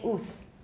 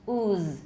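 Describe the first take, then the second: First: The final consonant is fully voiceless throughout. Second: The final consonant is voiced in its first half. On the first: The speaker calls it wrong. "Don't say oos. That sounds really funny" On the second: The speaker calls it right. "We need that voicing in the first half"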